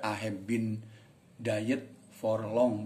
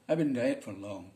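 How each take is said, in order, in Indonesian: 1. 'I have' diucapkan lengkap. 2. 'I have' disingkat menjadi 'I've'. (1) "Boleh aja dibaca" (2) "Gitu bacanya, I've been diet, orang bule gitu"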